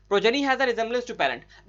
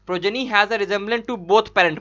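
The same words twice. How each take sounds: First: Said in the usual way. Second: Slow misreading, both leaned on and falling; slow read with both stressed. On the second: Shown as a demonstration. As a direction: add both and hit it, as if reading it from memory. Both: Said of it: "बोल दे रहा था अपने मन से".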